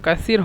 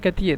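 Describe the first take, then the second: First: The middle consonant is a soft 'th' sound. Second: The middle consonant is a hard 't' sound. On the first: This is the standard form. "মূলত কাসির হবে সা" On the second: This is how Egyptians say it. "মিশরা তা বলে"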